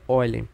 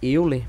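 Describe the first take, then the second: First: The name is said with German-style vowels. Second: The name is said with Portuguese-style vowels. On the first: This follows the name's original language. "como ele é um matemático alemão, a gente a pronúncia do nome dele é Euler" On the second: This is how people usually say it. "Normalmente a gente fala que Euler"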